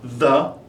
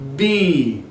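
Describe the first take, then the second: First: It uses the pronunciation for words starting with consonants. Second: It uses the pronunciation for words starting with vowels. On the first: "you can see it's pronounced with consonants" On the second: "this pronunciation changes when you use vowels"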